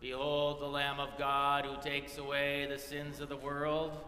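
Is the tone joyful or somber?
somber. It is said in a serious, somber tone.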